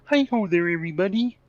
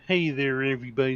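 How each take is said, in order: First: The voice is pitched higher. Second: The voice is pitched lower.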